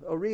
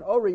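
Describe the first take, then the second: First: "Ori" stressed on "ri"; stress on last syllable. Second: "ori" stressed on the O; stress on first syllable. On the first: Teacher explaining the command form, "Ori" stressed at the end. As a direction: push the final syllable of "Ori". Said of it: "is a tzivui to". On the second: Teacher explaining "my light", "ori" stressed up front. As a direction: lead hard on the start of "ori". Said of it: "means my light". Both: Shown as a demonstration.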